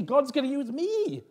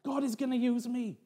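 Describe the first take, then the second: First: High, excited voice landing hard on "me"; stress on ME. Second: High-pitched, thrilled declaration; excited. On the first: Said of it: "more the emphasis was on me". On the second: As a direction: marvel aloud at being chosen. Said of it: "I was so excited". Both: Retold or imitated.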